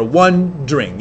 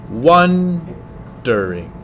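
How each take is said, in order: First: "wondering" squeezed to two quick syllables; clipped wondering. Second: "wondering" drawn out syllable by syllable; slow stretched wondering. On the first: Teacher contrasts two ways of saying the word, clipped to two syllables. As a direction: say "wondering" short as "wond'ring". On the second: Teacher contrasts two ways of saying the word, slow and stretched. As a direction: stretch "wondering" slowly into three full beats. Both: Shown as a demonstration. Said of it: "or wondering".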